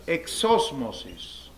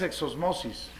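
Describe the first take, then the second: First: The stress is on the second syllable. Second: The stress is on the third syllable. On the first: The speaker calls it right. "Palabra esdrújula" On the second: The speaker calls it wrong. "y no es exosmosis"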